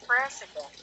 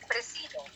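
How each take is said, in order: First: The middle consonant is a buzzing z sound. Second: The middle consonant is a hissing s sound. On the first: The speaker calls it right. "S there is pronounced as Z" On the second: The speaker calls it wrong. "It's not president"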